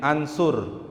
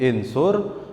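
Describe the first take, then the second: First: The word begins with an a vowel. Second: The word begins with an i vowel. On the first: "Tidak mungkin ansur" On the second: "gak mungkin insur"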